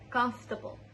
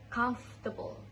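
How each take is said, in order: First: The first part is shortened to 'comf'. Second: The same.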